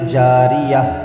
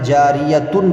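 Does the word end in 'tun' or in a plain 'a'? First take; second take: plain 'a'; 'tun'. First: The word ends with a plain 'a' vowel. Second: The word ends with a 'tun' syllable. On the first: The speaker calls it right. "जब आयत करेंगे तो हम क्या पढ़ेंगे?" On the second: The speaker calls it wrong. "ये गलत हो जाएगा"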